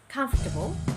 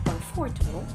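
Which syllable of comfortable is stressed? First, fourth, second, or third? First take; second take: first; second. First: The stress is on the first syllable. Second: The stress is on the second syllable. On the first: The speaker calls it right. "but rather you should say" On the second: The speaker calls it wrong. "not on the second"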